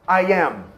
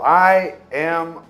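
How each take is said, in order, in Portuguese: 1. Um som de 'y' liga as duas palavras, falado rápido. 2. As duas palavras não têm som de 'y' entre elas. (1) "quando fala rápido ... essa invasão ali do som de Y" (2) "A gente sempre fala"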